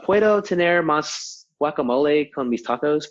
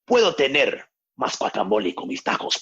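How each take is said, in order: First: It is said with an American English accent. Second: It is said with a dramatic Mexican-style accent.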